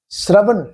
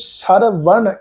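First: The opening s and r form one cluster. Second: A vowel separates the opening s and r. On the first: The speaker calls it right. "ਸ੍ਰ ਤੋਂ ਪਾਠ pronounce ਕਰੋ ਸ੍ਰ" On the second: The speaker calls it wrong. "ਇਹਨੂੰ ਸਰਵਣ ਇਦਾਂ ਨਹੀਂ"

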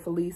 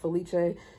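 First: The name has a non-Italian pronunciation. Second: The name has an Italian pronunciation. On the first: This is how the name used to be said. "her name is no longer Felice" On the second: This honors the name's Italian origin. "I'm honoring the Italian pronunciation"

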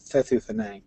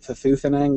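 First: The stress falls on the first syllable. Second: The stress falls on the second syllable. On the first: The speaker calls it right. "Stress is on the first and last syllable" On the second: The speaker calls it wrong. "I mispronounced it Thethuthenang with a stress on the second syllable instead of the first"

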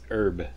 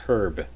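First: The word begins with a silent H. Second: The word begins with an audible H. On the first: This is how it is said in the States. "in the States it's pronounced herb" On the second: This is how it is said in Canada and Britain. "we pronounce the H in herb"

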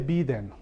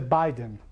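First: The first syllable sounds like 'bee'. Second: The first syllable sounds like 'bye'. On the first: The speaker calls it wrong. "no se dice Biden" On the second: The speaker calls it right. "se dice Biden. Como la mano. Bye"

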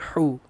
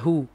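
First: The h sound is pressed and forced. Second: The h sound is plain and unpressed. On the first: The speaker calls it wrong. "Jangan sebut hu" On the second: The speaker calls it right. "Dia ha biasa"

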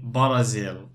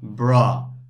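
First: The stress is on the first syllable. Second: The stress is on the second syllable. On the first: The speaker calls it wrong. "lots of students will say Brazil and it's wrong" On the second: The speaker calls it right. "You say Brazil"

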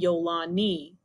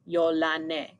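First: The name is said with an English pronunciation. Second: The name is said with its original pronunciation. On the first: "if you want to say it in English, you can say Yolani" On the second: "That's how you say it correctly"

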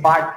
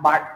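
Both takes have the same delivery.

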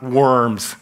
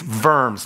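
First: The word begins with a W sound. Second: The word begins with a V sound. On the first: It names the earthworms. The speaker calls it wrong. "not worms. Don't think night crawlers" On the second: It names the German city. The speaker calls it right. "it's always pronounced with a V. It's Worms"

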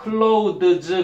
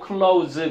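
First: The voiced th sound is pronounced before the s. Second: The th sound is dropped, sounding like close. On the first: "father, mother 할 때처럼도 내고" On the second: "안 내서 그냥 close"

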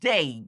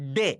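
First: The vowel glides from 'e' to 'ee'. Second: The vowel is a single steady 'e' sound. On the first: The speaker calls it right. "শুদ্ধ উচ্চারণে আমরা বলবো ডেই" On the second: The speaker calls it wrong. "DAY আমরা বলতাম ডে"

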